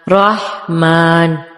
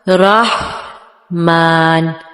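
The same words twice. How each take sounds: First: The word is said at ordinary speed. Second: The word is said slowly and drawn out. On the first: "normally पढ़ें normal speed में" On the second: "पहले slow motion में करनी है"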